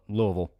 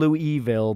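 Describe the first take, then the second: First: The word is said reduced, with syllables run together. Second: The word is said fully, with all syllables clear. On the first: This is the way locals say it. "we just call it Louisville. Like that" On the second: This is the way outsiders say it. "I understand Louisville"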